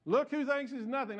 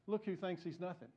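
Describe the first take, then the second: First: The punchline retold louder and higher, LOOK stressed; punchline repeated. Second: Quiet, laughing aside; nudging aside. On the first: Shown as a demonstration. Pastor repeating the punchline to the congregation, louder. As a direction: land the joke for the room. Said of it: "I told Cheryl I was gonna tell that again". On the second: Retold or imitated. Billy nudging the pastor, a quiet laughing aside. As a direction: murmur it with a grin, sharing the joke. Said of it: "Billy nudges me and says".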